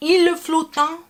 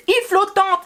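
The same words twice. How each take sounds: First: "Il est flottant" with the wrong middle syllable, higher; mock mispronunciation. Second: "Il flottant" run together without the middle syllable, high; correct pronunciation. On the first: Mocking the supposed Frenchman's dessert name, wrong pronunciation. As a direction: imitate a botched "Il est flottant" in disbelief. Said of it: "that pronunciation is terrible".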